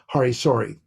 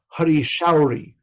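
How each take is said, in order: First: The second word begins with a plain 's' sound. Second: The second word begins with an 'sh' sound. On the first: The speaker calls it wrong. "There's no such thing as Hari Sori" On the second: The speaker calls it right. "that is the proper pronunciation"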